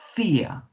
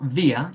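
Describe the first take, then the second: First: The word starts with an f sound. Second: The word starts with a v sound. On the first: The speaker calls it right. "it's fear" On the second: The speaker calls it wrong. "it's not via"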